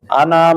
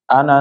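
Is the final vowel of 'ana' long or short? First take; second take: long; short. First: The final vowel is held long. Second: The final vowel is cut short. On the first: "ana itu panjang ya" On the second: "pendek dia dibacanya, bukan panjang"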